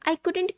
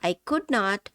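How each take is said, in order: First: The two words are shortened into one. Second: Both words are said fully and separately. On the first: "కుడ్ నాట్ అనకుండా I కుడెంట్ catch that అంటాము" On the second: "పూర్తిగా కుడ్ నాట్"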